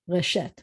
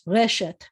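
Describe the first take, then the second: First: The stress is on the second syllable. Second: The stress is on the first syllable. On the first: The speaker calls it wrong. "not reshet" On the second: The speaker calls it right. "Eh-es always have the accent on the first syllable, so it's reshet"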